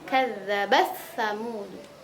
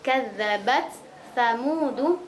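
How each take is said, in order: First: The t merges into a doubled s sound. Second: The t is pronounced clearly before the s. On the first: "Tapi kalau idgham" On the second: "Kalau idhar"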